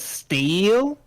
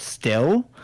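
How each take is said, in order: First: The word is said in a Southern accent. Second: The word is said in a plain accent.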